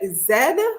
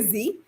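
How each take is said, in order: First: The letter is said the Dominican way, zed. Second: The letter is said the American way, zee.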